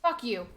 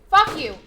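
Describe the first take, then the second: First: Said in the usual way. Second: Loud, high yell of fuck; furious shout. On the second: Real, not acted. Gamer screaming at a charging dinosaur, furious shout. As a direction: scream the curse at the beast.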